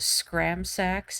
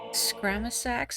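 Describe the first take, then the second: First: The word is said with two syllables. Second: The word is said with three syllables. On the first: "I just lose one of the A's" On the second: "is that how you say it?"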